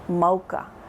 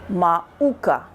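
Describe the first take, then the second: First: Ma and uka run together without a break. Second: A glottal break separates ma and uka. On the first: The speaker calls it right. "It's actually pronounced mocha" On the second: The speaker calls it wrong. "it would be as if there was an okina between the ma and the uka, which is not correct"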